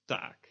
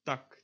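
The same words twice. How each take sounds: First: "taak" with a long open aa; tense vowel. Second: "Tak" with a short lax vowel. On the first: Teacher contrasts two Dutch vowels, tense long "taak". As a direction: hold the aa in "taak". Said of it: "and the tense version". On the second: Teacher contrasts two Dutch vowels, lax short "Tak". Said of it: "lax version". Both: Shown as a demonstration.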